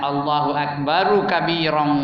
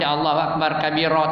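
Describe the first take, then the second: First: The final endings -u and -n are fully pronounced. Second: The final endings of akbar and kabira are dropped. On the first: The speaker calls it right. "Dia nak" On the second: The speaker calls it wrong. "tak betul tu"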